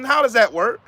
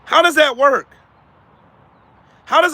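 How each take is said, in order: First: Said in the usual way. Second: Higher and louder with DOES stressed; emphatic challenge. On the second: Real, not acted. Challenging viewers again, louder and insistent. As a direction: demand an answer.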